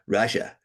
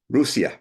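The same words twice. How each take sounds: First: It uses the usual English pronunciation. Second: It uses a native-style pronunciation. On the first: The speaker calls it wrong. "not Russia" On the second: The speaker calls it right. "as the natives pronounce them"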